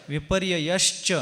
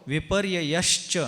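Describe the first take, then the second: Both takes have the same delivery.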